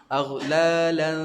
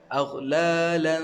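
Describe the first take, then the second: First: The ending is nasal with the mouth open. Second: The same.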